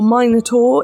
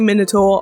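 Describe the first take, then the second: First: It is said the English or American way. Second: It is said in the speaker's own way.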